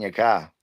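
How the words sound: The R sound in car is dropped.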